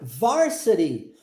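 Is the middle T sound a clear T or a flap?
flap. The middle T is a quick flap. "tá vendo o T sendo transformado em R? Pronúncia de inglês americano"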